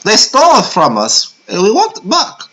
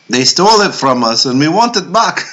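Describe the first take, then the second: First: It is said in an imitated put-on voice. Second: It is said in the speaker's ordinary voice.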